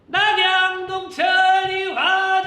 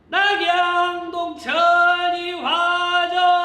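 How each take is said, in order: First: The call is shouted at a quick tempo. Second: The call is shouted at a slower, steady tempo. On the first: The musicians play the rhythm at a faster tempo. "한번 제가 빠르게 외쳐볼까요?" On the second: The musicians play the rhythm at a slower tempo. "제가 낙양동천 이화정이라고 타령의 템포에 맞추면은"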